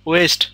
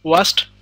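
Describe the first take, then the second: First: The vowel sounds like 'ay'. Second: The vowel sounds like 'ah'. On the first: The speaker calls it right. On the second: The speaker calls it wrong. "এটার pronunciation ওয়াস্ট না"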